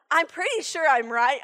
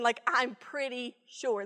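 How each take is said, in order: First: Said in the usual way. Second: "I'm pretty sure" said slowly with weight on "pretty"; emphatic pretty sure. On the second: Shown as a demonstration. Speaker stressing how sure she is, slowly. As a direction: lean on "pretty" to stress certainty. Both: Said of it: "when I say".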